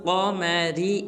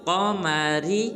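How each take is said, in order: No difference in how they are said.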